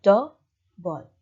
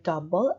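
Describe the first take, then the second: First: "do, ball" in two parts with a short pause; split into syllables. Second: Said in the usual way. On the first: Shown as a demonstration. Teacher repeats double cut in parts, "do, ball" syllable by syllable. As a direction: say "do, ball" as two separate beats. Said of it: "and then it's". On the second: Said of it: "for two syllable words".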